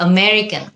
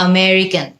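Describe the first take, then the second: The two takes are said the same way.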